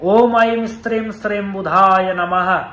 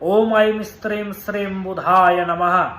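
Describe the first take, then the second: The two takes are said the same way.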